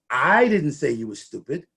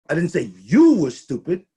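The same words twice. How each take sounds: First: The word "I" carries the main stress. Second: The word "you" carries the main stress. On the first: Someone else said it. "The hostess said it" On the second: Someone else was called stupid. "I said the team was stupid"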